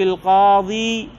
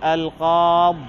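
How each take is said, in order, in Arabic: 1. تنتهي الكلمة بياء مدّ طويلة. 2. تنتهي الكلمة من دون ياء مدّ طويلة. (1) "والقاضي يوقف بإثبات الياء" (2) "وعلى القاضي بالحذف"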